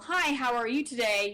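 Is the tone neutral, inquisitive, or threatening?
neutral. It is said in a plain neutral tone.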